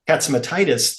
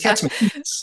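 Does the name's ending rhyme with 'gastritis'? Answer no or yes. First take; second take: Yes; No. First: The ending rhymes with the word gastritis. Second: The ending does not rhyme with gastritis. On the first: The speaker calls it wrong. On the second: The speaker calls it right.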